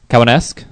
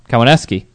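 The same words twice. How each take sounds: First: The name ends without a 'kee' sound. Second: The name ends with a 'kee' sound. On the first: The speaker calls it wrong. "Yeah, definitely not that" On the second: The speaker calls it right. "Need to say the key at the end"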